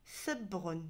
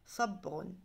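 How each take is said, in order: First: The first s sound is light and plain. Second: The first s sound is deep and heavy. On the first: The speaker calls it wrong. "il y en a qui vont me dire sabrun. Non" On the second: The speaker calls it right. "Ça doit être plus grave"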